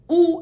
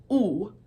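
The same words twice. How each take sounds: First: 'oo' as a gliding English vowel. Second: 'oo' as a pure vowel, no glide; Armenian oo. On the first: Teacher showing what it never is, English vowel demo. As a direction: round and glide the 'oo'. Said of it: "the way it is in English". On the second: Teacher correcting the English way, pure vowel demo. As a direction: hold 'oo' steady and firm. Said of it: "It's oo". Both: Shown as a demonstration.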